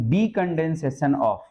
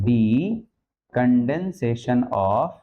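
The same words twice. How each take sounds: First: Decondension of said very slowly, each syllable stretched; slow dictation. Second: Decondension stretched very slowly, ending on a rising of; drawn-out dictation. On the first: (धीरे-धीरे लिखवाना) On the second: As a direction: drag the words out for writing. (बहुत धीरे, ऊपर उठता सुर) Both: Shown as a demonstration. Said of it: "क्या लिख दूं".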